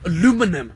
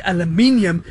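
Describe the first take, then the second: First: Aluminum with four syllables, stress on the second, a-LU-mi-num; imitating an American aluminum, stress on LU. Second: Aluminium with five syllables, stress on the third, al-u-MIN-i-um; aluminium said the British way, stress on MIN. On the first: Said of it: "and I will say aluminium". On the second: Shown as a demonstration. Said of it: "and you say aluminum".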